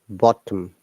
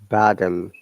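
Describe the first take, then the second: First: The middle T is a clear T sound. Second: The middle T is flapped, like a soft D. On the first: "But for us, it remains same" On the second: "American English will be bottom"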